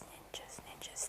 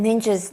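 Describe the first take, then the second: First: Fading into a whisper. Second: Said in the usual way. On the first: Pretend. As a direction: drop to a hushed whisper. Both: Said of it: "Somebody is whispering in this room".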